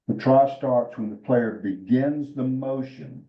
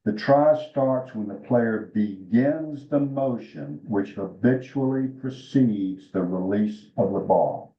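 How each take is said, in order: First: Slow, deliberate rule recital; slow emphatic rule. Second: Slower still, every word weighed; slow emphatic rule. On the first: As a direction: lay out each word of the rule slowly. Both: Shown as a demonstration. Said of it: "you're gonna hear this several times".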